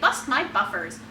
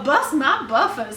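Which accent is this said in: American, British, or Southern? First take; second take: American; Southern. First: It is said in a general American accent. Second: It is said in a Southern US accent. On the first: "the American" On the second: "the Southern well"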